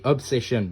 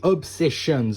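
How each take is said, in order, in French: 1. Le mot finit sans son s. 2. Le mot finit par un son s. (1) "ça prend pas de S, c'est Obsession" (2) "a dit Backrooms et Obsessions"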